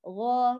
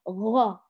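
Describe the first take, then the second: First: The gh sound is fully voiced and clean. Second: The gh sound is breathy with a gargling noise. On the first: The speaker calls it right. "والغين مجهور غا غا" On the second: The speaker calls it wrong. "يهمس الغين يقول غا فيأتي معه مثل صوت الشخير"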